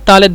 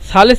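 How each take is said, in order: First: The word begins with a hard 't' sound. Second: The word begins with a soft 'th' sound. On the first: This is the regional form. "মাঝে মধ্যে ওরা তালেত বলে মানে সাকে সবসময় তা বলে" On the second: This is the standard form. "সা আলিফ লাম সা সালেস সালেস মানে হলো তিন"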